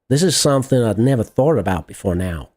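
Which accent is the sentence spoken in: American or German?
American. It is spoken with an American accent. "How about American car, man?"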